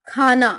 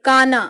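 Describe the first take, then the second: First: Breath puff on KH in खाना; aspirated practice word. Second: Plain K in काना; unaspirated practice word. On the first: Teacher drilling southern students, खाना with aspiration. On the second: Teacher drilling southern students, काना without aspiration. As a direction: start काना with क, no puff of air. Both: Shown as a demonstration. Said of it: "उच्चारण का विशेष अभ्यास".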